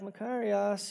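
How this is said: It is said jokingly, with grudging sarcasm. Mock congratulations to someone who got what you wanted. "you can say it in jest too"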